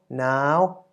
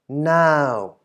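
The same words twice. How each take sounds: First: The syllable is said with a high tone. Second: The syllable is said with a falling tone. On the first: "resulting in a high tone" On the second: "resulting in a falling syllable"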